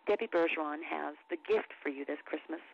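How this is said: It is delivered like a documentary story. "narration or narrative read"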